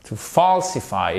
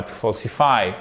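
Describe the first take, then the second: First: "falsify" with long throaty FAWL; correct English vowel. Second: "falsify" with a short French O, fol-si-fy; wrong short vowel. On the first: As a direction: open and stretch the first vowel of "falsify". (« falsify » avec un FAWL long, de la gorge) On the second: (« falsify » avec un o court à la française) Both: Shown as a demonstration. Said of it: "et pas to falsify".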